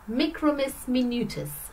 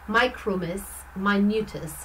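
First: It is pronounced in a continental Latin style. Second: It is pronounced in an English style. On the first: "I guess I'm pronouncing it the Latin way" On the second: "if you are English, you would probably say"

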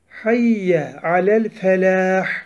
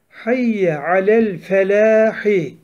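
First: The phrase ends on the h consonant. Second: The phrase ends with a short vowel after h. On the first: The reciter stops after this word. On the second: The phrase continues without stopping.

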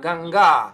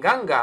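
First: The final vowel is long. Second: The final vowel is short. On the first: The speaker calls it right. "она оканчивается на А долгую" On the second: The speaker calls it wrong. "не ганга"

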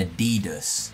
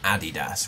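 First: The name is said the American way. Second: The name is said the British way. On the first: The speaker calls it wrong. "We don't say Nike and Adidas. Adidas is crazy" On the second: The speaker calls it right. "any UK watcher can back me up. It's Nike and Adidas"

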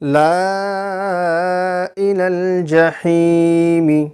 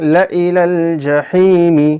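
First: The alif vowel is drawn out long. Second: The alif vowel is kept short. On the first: The speaker calls it wrong. "আমি এখানে টান দিয়ে দিলাম, কিন্তু টান হবে না" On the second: The speaker calls it right. "বলতে হবে কি"

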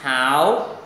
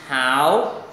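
First: The pitch rises from mid to high. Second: The same.

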